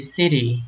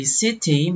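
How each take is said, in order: First: Said in the usual way. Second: City said as SIDDY, t like a d; flapped t. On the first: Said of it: "Dari city". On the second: Shown as a demonstration. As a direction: tap the t in city into a d. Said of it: "akhirnya kayak D bunyinya".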